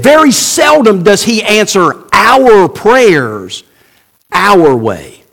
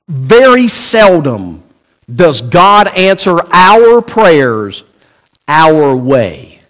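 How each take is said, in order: First: "very" hit hard, then slow through "seldom"; stress on very seldom. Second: "very seldom" drawn out slow and heavy; slow, weighty stress on "very seldom" and "our way". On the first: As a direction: insist on "very seldom", slowly. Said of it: "I didn't say he didn't answer our prayers". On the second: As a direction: lean hard on "very seldom", dropping low on "our way". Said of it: "I said very seldom does he answer". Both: Shown as a demonstration.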